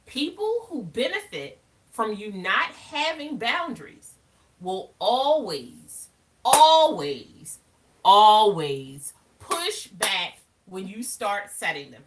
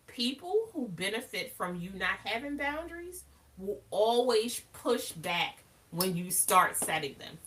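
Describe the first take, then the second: First: Slow, loud, stretched always; emphatic repeat. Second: Said in the usual way. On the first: Shown as a demonstration. To viewers about people who push back, loud drawn-out stress on always. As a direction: lean hard on always, always. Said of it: "baby, that's a song". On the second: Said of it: "repeated with emphasis".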